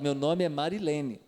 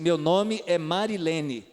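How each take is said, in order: First: It is said in a calm, neutral tone. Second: It is said in an annoyed, angry tone.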